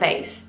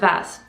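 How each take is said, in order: First: The word has an American-style vowel. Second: The word has a British-style vowel. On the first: "not vase" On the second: "I would pronounce it vase, because that's what they told me at school"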